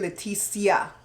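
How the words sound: The name is pronounced the Belizean way. "Belizeans say Leticia"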